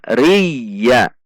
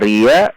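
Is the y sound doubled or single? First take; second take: doubled; single. First: The y sound is held and doubled. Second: The y sound is short and single. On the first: The speaker calls it right. "Namun dibaca riya" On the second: The speaker calls it wrong. "berarti tidak ada tasydid"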